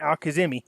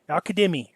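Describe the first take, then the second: First: The middle consonant is a Z sound. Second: The middle consonant is a D sound. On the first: The speaker calls it wrong. "I'm so used to calling him Al Kazemi" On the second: The speaker calls it right. "it's pronounced with the D"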